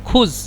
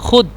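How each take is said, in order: First: The word ends with a z-like sound. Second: The word ends with a d sound. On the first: This is the standard form of the language. "খুজ মনে করেন শুদ্ধ ভাষা" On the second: This is how Egyptians say it. "কিন্তু ওরা বলে খুদ"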